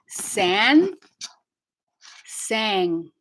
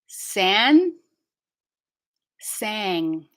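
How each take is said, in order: Both takes have the same delivery.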